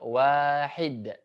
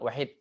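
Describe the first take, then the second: First: The first vowel is drawn out long. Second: The first vowel is clipped short and rushed. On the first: The speaker calls it right. "pindahlah dengan mad ya" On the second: The speaker calls it wrong. "terlalu cepat misalkan"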